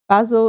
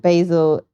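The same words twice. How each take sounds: First: It is said with a British pronunciation. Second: It is said with an American pronunciation. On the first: "more of a British pronunciation" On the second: "more American"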